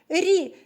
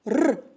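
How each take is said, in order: First: The consonant is soft and palatalized. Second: The consonant is hard and not palatalized. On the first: "за твою м'яку вимову всіх приголосних звуків" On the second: "усе вимовляєш дуже твердо, чітко"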